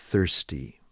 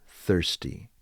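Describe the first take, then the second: Both takes have the same delivery.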